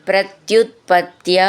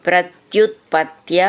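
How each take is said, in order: The two takes are said the same way.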